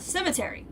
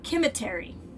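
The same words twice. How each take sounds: First: It has an ordinary English pronunciation. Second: It has a Roman-style, Latin-like pronunciation.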